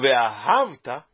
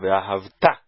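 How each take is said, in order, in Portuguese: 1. A tônica está na penúltima sílaba. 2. A tônica está na última sílaba. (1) "errado, totalmente errado" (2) "Isto porque nós estamos lendo ela oxítona"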